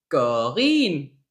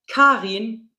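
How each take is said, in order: First: It begins with a G sound. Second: It begins with a K sound.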